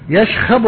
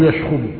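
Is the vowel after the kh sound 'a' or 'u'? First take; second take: a; u. First: The vowel after kh is a. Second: The vowel after kh is u. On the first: "بفتح الخاء" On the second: "وضمها"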